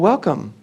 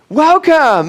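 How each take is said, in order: First: It sounds flat and unenthusiastic. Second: It sounds warm and enthusiastic. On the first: The person is tolerated but not really wanted. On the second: The person is truly wanted.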